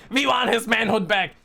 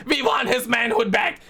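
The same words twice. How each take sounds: First: Said in the usual way. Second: Shouting. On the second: Real, not acted. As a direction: shout it like a protest chant. Rallying chant about Thor.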